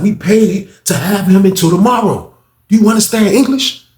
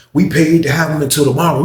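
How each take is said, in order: First: Higher and louder, spelling it out; impatient higher repeat; exasperated repeat. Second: Said in the usual way. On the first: Retold or imitated.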